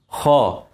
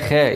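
First: The kh sound is heavy and full. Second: The kh sound is light and thin. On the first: The speaker calls it right. "خاء مفخمة" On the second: The speaker calls it wrong. "ما تقولش بقى خاء"

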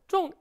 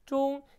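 First: The syllable is said with a sharp falling pitch. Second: The syllable is said on a high level pitch. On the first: It means to hit the mark or take a liking to. "사성으로 종 읽게 되면 꽂히다" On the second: It means middle. "일성으로 읽어주지만"

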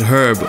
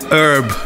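First: The word begins with an audible H sound. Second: The word begins without any H sound.

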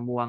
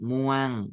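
First: The syllable has a mid level tone. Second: The syllable has a falling tone. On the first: "มอวองอมวง" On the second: "ไม้เอก"

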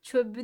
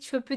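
First: The consonant is softened to a voiced sound. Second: The consonant stays unsoftened and voiceless. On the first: The speaker calls it wrong. "değil" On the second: The speaker calls it right.

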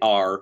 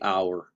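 First: The word sounds like 'are'. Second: The word sounds like 'hour'. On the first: The speaker calls it wrong. "we don't say R" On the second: The speaker calls it right. "we say our"

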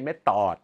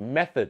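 First: The first vowel is not an 'e' sound. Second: The first vowel is an 'e' sound. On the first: The speaker calls it wrong. "ไม่ใช่" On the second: The speaker calls it right. "สระเอ"

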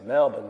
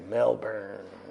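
First: Melbourne is pronounced with an Australian accent. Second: Melbourne is pronounced with an American accent. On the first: "The Australians say Melbourne, mate" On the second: "Americans say Melbourne"

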